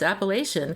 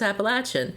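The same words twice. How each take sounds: First: The word is said the Pennsylvania way. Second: The word is said the Southern way. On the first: "in Pennsylvania it's Appalachian" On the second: "the South it's Appalachian"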